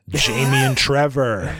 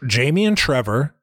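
First: The phrase ends with a final, closing tune. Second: The phrase ends with an unfinished, continuing tune. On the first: This is the last name announced. The speaker calls it right. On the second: More names seem to follow. The speaker calls it wrong.

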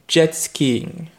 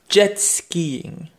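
Both takes have the same delivery.

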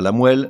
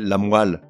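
First: The vowel after the w sounds like è. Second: The vowel after the w sounds like a. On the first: The speaker calls it wrong. "On ne dit pas la moelle" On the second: The speaker calls it right. "mais la moelle"

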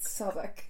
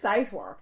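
First: The place name is given its accepted pronunciation. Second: The place name is given a misread pronunciation. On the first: This is how the place is really said. The speaker calls it right. "And they're like, [name], please" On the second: Someone unfamiliar guessed it from reading. The speaker calls it wrong. "I read and I was like, where's Southwark?"

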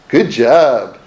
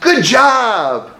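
First: It is said in a sarcastic tone. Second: It is said sincerely and warmly.

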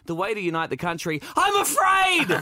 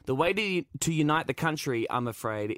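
First: 'I'm afraid' is a frightened, emphatic cry. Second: 'I'm afraid' is a calm, flat aside. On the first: The speaker is admitting that he is actually scared. "a moment of terrified honesty. So it'd be more like" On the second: 'I'm afraid' is a polite hedge within one continuous sentence. "I'm not sure if that was one continuous sentence"

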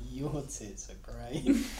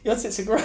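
First: It is said pleasantly, with a smile. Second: It is said fearfully, as if under threat.

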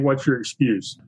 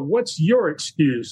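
First: The phrase is said plainly, with flat emphasis. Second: The phrase is said with strong, challenging emphasis. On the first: The speaker is just reading the title of the show. The speaker calls it wrong. "instead of just saying" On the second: The speaker is challenging people to overcome their excuses. The speaker calls it right. "Izzy taught me to call my show"

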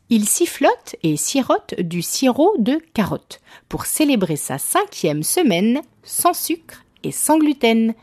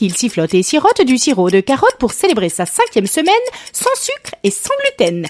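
First: It is said slowly. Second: It is said fast.

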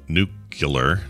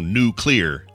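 First: The word is not said as new plus clear. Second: The word is said as new plus clear. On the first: The speaker calls it wrong. "My dad used to say nuclear" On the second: The speaker calls it right. "to say new, the word new, and the last word as just clear"

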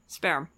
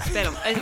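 First: The R is plain, not rolled. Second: The R is rolled slightly.

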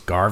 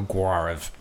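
First: The name ends with a b sound. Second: The name ends with a v sound. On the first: The speaker calls it right. "that is the proper way to pronounce it" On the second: The speaker calls it wrong. "I don't have to go Guarv"

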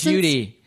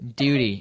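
First: It is said in an American accent. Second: It is said in a non-American accent.

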